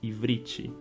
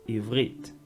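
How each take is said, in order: First: An extra vowel is added after the final consonant. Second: The word ends on the consonant sound. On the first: The speaker calls it wrong. "muitas pessoas vão pronunciar Ivrit... tem esse acréscimo do i" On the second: The speaker calls it right. "o próprio nome da língua"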